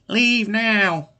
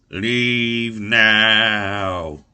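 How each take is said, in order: First: It is said in a high-pitched, weaselly voice. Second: It is said in a deep, spooky voice.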